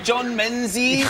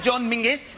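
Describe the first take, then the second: First: The surname is said with a z sound. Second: The surname is said with a g sound. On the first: This is how people normally say the shop's name. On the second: Nobody says the shop's name this way.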